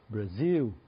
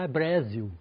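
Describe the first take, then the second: First: The stress is on the second syllable. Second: The stress is on the first syllable. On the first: The speaker calls it right. "Então cai no ar lá" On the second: The speaker calls it wrong. "porque acham que em inglês ah"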